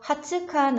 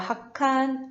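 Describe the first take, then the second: First: A full 'tsu' syllable is said in the middle. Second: A doubled consonant replaces the middle syllable. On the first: The speaker calls it wrong. "하츠칸 아니라" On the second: The speaker calls it right. "쯔 플러스 카사타는 초금 카사타"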